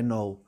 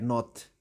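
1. O som final de t é omitido. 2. O som final de t é pronunciado. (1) "não é no" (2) "tens que ler o T, é not"

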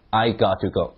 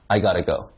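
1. 'to' 完整、单独地读出来。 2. 'to' 被弱化，和前面连在一起读成 'gotta'。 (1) "再来一下I got to go" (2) "那个to 可以弱读成t got to，所以就变成那个单词就是G-O-T-T-A gotta"

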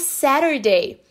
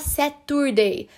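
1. O t do meio soa como um r rápido. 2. O t do meio é um som de t claro. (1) "Por que é Saturday?" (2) "Mas por que não é Saturday?"

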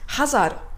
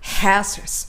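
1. 単語は平たい日本語のカタカナ式の母音で発音される。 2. 最初の母音は伸ばす英語式の母音だ。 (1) "ハザードじゃなくて" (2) "はっていうね、英語らしい母音を使います。ちょっと伸ばすような感じ。"

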